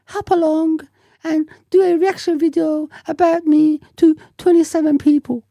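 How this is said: It is said in a high, girlish voice.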